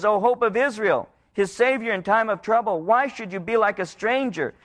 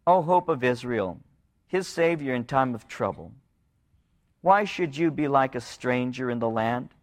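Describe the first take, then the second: First: Begging. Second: Said in the usual way. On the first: Retold or imitated. People begging the Lord not to ignore them. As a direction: cry it out as a plea. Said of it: "a begging of the Lord". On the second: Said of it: "This is a plea of mercy".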